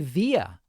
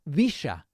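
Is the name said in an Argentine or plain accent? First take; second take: plain; Argentine. First: The name is said without an Argentine accent. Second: The name is said with an Argentine accent.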